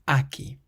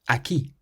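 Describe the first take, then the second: First: The stress is on the first syllable. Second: The stress is on the last syllable. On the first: The speaker calls it wrong. "rather than" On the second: The speaker calls it right. "has an accent on the I"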